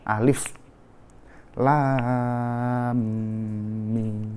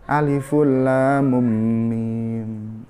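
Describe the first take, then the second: First: Alif ends in a stop before Lam. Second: Alif gets an added vowel linking to Lam. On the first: The speaker calls it right. "tapi akhirnya disukun" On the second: The speaker calls it wrong. "Jadi bukan Aliful Lam Mim"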